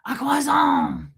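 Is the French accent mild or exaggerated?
exaggerated. It has a full, over-the-top French accent.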